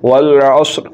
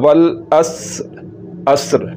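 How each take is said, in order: First: The s sound is heavy and emphatic. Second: The s sound is light and plain. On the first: The speaker calls it right. "پڑھنا ہے والعصر" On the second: The speaker calls it wrong. "غلط ہوگا والاس عصر"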